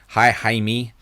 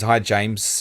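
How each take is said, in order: First: It is said in a Spanish accent. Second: It is said in the speaker's normal accent.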